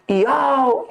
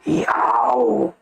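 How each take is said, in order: First: It is voiced like a dog's bark. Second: It is voiced like a lion's roar. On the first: "O cachorro" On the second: "o leão ruge assim"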